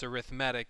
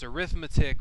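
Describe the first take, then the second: First: It is said with the adjective pronunciation. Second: It is said with the noun pronunciation. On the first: It describes a kind of sequence. "it's arithmetic when you're using it as an adjective" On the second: It names the branch of mathematics. "it's arithmetic when you're using it as a noun"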